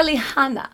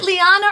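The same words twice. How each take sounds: First: Lihana with an audible h; pronunciation Lihana. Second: Liana with no h sound; pronunciation Liana. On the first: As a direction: sound the h before ana in Lihana. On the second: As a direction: glide straight from Li into ana in Liana. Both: Shown as a demonstration. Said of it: "is it Liana or Lihana".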